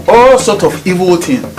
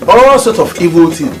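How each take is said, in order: Both takes have the same delivery.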